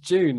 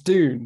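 First: The word begins with a j sound. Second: The word begins with a plain d sound. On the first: "like in an English accent" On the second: "saying that it's Dune"

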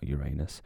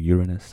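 First: The stress is on the second syllable. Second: The stress is on the first syllable. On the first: This sounds like a rude body-part joke. The speaker calls it wrong. "not Uranus. I don't want to look there" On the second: This names the planet plainly. The speaker calls it right. "or Uranus, I should say"

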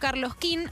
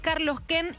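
First: The second word sounds like 'keen'. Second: The second word sounds like 'ken'. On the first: The speaker calls it wrong. "y no Carlos Ken" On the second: The speaker calls it right. "es que es Carlos Ken"

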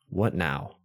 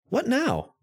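First: It sounds negative and unsure. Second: It sounds upbeat and positive.

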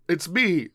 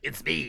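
First: It is said in a natural voice. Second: It is said in a put-on character voice.

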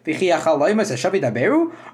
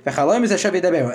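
First: It is said as a question. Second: It is said as a dismissive statement.

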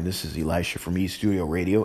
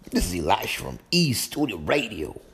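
First: It is said in a plain, unaccented voice. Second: It is said in a put-on Southern accent. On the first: "as I said before, in the country voice" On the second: "That's my little southern voice"

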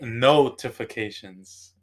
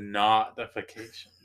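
First: The first vowel sounds like the one in 'notice'. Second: The first vowel sounds like the one in 'stop'. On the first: The speaker calls it right. "it's based off of notice" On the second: The speaker calls it wrong. "You're saying it like stop"

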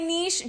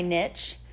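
First: The word ends with a soft 'sh' sound. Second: The word ends with a 'ch' sound. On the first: "I say niche just because I don't hear the T" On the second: "But then people say niche, and it sounds, like, kind of cute"

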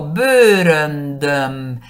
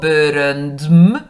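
First: An ö vowel comes before the final m. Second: The final m follows the d directly. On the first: The speaker calls it right. "digo bőröndöm" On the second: The speaker calls it wrong. "No digo bőröndm"

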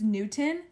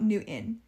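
First: The middle T is clearly pronounced. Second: The middle T is swallowed into a glottal stop. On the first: The speaker calls it right. "pronounce the T" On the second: The speaker calls it wrong. "not Newton"

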